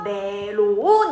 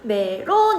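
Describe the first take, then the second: First: The second syllable starts low and rises. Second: The second syllable is on a high, level pitch. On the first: "낮았다가 높아지는 소리잖아" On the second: "론 같은 경우는 하나 있잖아. 높은 소리 낸다"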